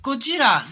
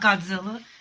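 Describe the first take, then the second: First: The name is pronounced Go-ji-ra. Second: The name is pronounced God-zil-la. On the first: The speaker calls it right. "It's Gojira" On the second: The speaker calls it wrong. "not Godzilla"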